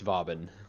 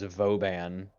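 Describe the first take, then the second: First: The name is said with an English pronunciation. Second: The name is said with a French pronunciation. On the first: "But I don't care" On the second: "technically the correct phonetic pronunciation of it because it's a it's a play off of a French word"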